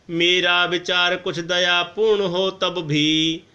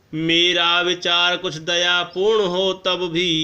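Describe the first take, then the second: The two takes are said the same way.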